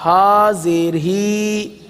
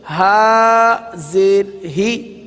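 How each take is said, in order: First: ہا زیر ہی with the vowel stretched and sung out; wrong drawn-out spelling. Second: ہا زیر ہی with a short, crisp zer; correct short spelling. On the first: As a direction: demo the mistake: draw out the zer in ہی. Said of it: "یہ ہجے غلط ہے". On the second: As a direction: give the right reading, vowel kept short. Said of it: "ہا زیر ہی نہیں پڑھیں گے، اس کو پڑھیں گے". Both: Shown as a demonstration.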